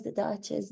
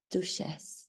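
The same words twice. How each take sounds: First: Said in the usual way. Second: Softly Frenchified Duchess, said 'doo-shess'; low, soft French-accented Duchess with a 'sh'. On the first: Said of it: "I like to pronounce". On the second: Shown as a demonstration. Showing how she now pronounces her title, French accent. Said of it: "She has more of a French accent".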